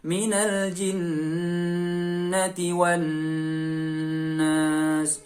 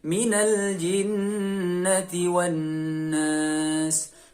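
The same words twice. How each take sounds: First: The nasal hum is held for too long. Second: The nasal hum is held for a medium length. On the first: The speaker calls it wrong. "Atau terlalu lama. Itu juga terlalu berlebihan" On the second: The speaker calls it right. "Jadi dua atau tiga harokat"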